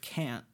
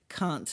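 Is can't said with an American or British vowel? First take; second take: American; British. First: It is said with an American-style vowel. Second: It is said with a British-style vowel. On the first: "instead of can't" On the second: "try to say can't"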